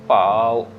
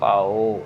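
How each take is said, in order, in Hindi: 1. शब्द का अंत v ध्वनि से होता है। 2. शब्द का अंत o ध्वनि से होता है। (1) "सो पाव" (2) "नॉट पाओ, पाओ नहीं करना"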